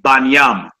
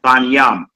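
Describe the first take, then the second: First: The word ends with a 'nyam' sound. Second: The word ends with a 'nyam' sound.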